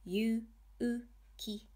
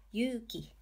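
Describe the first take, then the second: First: Yu-u-ki one beat at a time; syllable-by-syllable "Yu-u-ki"; sounded out. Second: Yuki joined up, "yu" held long as "yuuki"; long vowel. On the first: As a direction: separate each kana of Yu-u-ki with a pause. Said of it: "you just add the hiragana u". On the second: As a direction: blend it into one word, stretching the u of yuki. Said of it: "To extend syllables in the u column". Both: Shown as a demonstration.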